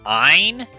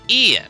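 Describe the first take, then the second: First: The name is said like 'Ein', one syllable. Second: The name is said like 'Ian', two syllables. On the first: The speaker calls it wrong. "I've heard Ein, which I don't like that. That just sounds bad" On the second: The speaker calls it right. "I said Ian, because it's E plus N. That makes sense to me"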